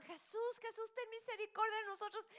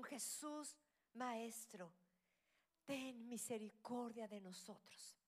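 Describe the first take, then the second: First: Much higher, loud pleading cry; desperate shout. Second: Said in the usual way. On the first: Retold or imitated. Ten lepers crying to Jesus, loud desperate shout. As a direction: scream it to Jesus, begging for mercy. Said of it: "pero le gritaban". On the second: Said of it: "empezaron a gritar a alta voz".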